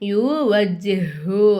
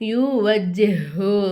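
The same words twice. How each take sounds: No difference in how they are said.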